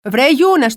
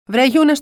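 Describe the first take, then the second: First: Scolding call. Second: Calling down. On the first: Mother scolds Younes at doctor. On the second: Mother calls down to Younes. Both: Retold or imitated.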